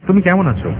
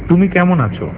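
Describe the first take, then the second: Both takes have the same delivery.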